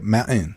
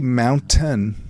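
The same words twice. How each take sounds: First: No clear T sound is heard mid-word. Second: A clear T sound is heard mid-word.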